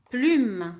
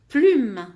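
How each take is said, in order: First: Said in the usual way. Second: Plume, higher and loud; loud model word. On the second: Shown as a demonstration. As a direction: call out Plume strongly. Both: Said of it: "lève la main quand tu entends U".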